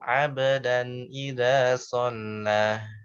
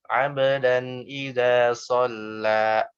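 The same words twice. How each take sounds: First: The final vowel ends with a breathy h. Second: The final vowel ends in a glottal stop. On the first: "ada hembusannya, ada hak sukunnya" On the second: "ada hamzah"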